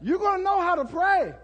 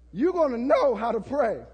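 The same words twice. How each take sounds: First: Higher, louder, pressing on know; preacher hammering the point; emphatic preaching. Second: Said in the usual way. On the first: Shown as a demonstration. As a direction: drive it home to the congregation. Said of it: "repeated with rising force". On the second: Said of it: "repeated calmer".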